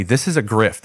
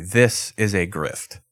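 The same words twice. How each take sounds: First: Said in the usual way. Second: "this is a grift" slow, leaning on "this"; deadpan "this is a grift" with weight on "this"; slow emphatic FYI. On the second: Shown as a demonstration. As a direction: spell "this is a grift" out slowly, punching "this". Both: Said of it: "just a quick F Y I".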